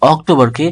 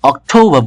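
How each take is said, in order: First: Said in the usual way. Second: অক্টোবর as "ok-thou-ba", r dropped; silent final R. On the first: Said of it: "অক্টোবরকে অক্টোবর বলবো". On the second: Shown as a demonstration. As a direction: puff the t, drop the r in অক্টোবর. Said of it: "রটা উজ্জ্ব থাকবে". (অক্টোবর-কে "অক্ঠোউবা" উচ্চারণ)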